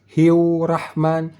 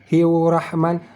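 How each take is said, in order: No difference in how they are said.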